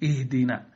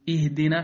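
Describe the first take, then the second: First: The opening hamza sounds heavy and thick. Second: The opening hamza sounds light and thin. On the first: The speaker calls it wrong. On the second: The speaker calls it right.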